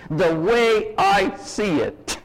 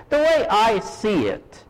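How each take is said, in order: First: 'The way I see it' stretched slowly as a tired catchphrase; slow, drawn-out cliché. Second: Said in the usual way. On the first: Retold or imitated. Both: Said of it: "the little sentence".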